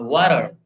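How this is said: It is said with a British accent.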